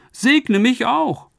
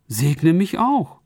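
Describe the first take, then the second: First: High, very slow, pained plea; anguished plea. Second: Quiet plea. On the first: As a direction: beg your father in anguish. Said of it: "schrie er laut auf, voll Schmerz und Bitterkeit". (hoher, gedehnter, schmerzerfüllter Flehruf) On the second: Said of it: "Und er begann laut zu weinen". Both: A narrator's reading.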